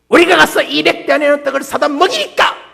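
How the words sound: It is read in a sulky, retorting tone.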